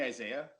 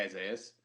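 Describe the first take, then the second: First: "Isaiah" ending in an open "-ah"; "Isaiah" with the s left off; common mispronunciation. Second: "Isaiah's" ending on a clear s; "Isaiah's", not open-ended "Isaiah"; correct name. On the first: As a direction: say "Isaiah" without a final s. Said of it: "They don't even say Isaiah's". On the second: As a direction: close "Isaiah's" with the final s sound. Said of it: "They don't even say". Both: Shown as a demonstration.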